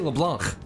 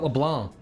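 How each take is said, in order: First: The final k sound is clearly pronounced. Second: The final k sound is left silent. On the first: The speaker calls it right. "Just say LeBlanc. ... There's a C at the end" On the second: The speaker calls it wrong. "Not LeBlanc"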